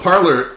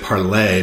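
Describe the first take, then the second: First: The name is said with an English-style ending. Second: The name is said with a French-style ending. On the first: "these Americans don't know how to pronounce it" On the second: "I want to say Parlay because it's like the French"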